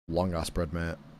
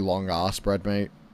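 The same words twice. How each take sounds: First: It has a mild, ordinary British accent. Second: It has a heavily exaggerated British accent.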